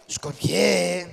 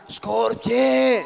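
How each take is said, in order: First: Said in the usual way. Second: Higher, louder drawn-out yell; loud shout. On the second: Acted. Father and children waking a sleeper, loud shout. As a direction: shout the name to wake him. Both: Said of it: "φωνάξτε δυνατά".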